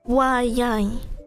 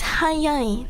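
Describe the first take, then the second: First: The word begins with a w sound. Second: The word begins with an h sound. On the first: The speaker calls it wrong. "not wayai" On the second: The speaker calls it right. "Because it's hayai"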